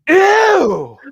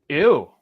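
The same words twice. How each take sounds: First: The loudest, most overwhelmed and disgusted ew. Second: A short, quiet, mildly disgusted ew. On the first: Being overwhelmed by the whole situation. "a third and final ooh" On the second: An instant first reaction. "It was just an instant ooh"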